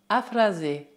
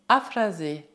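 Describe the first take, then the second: No difference in how they are said.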